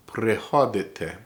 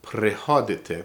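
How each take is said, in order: First: Prehodite, each syllable drawn out slowly; slow careful Prehodite for learners. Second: Said in the usual way. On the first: Shown as a demonstration. Teacher says Prehodite slowly so students can follow. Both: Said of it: "I'm gonna say it slow".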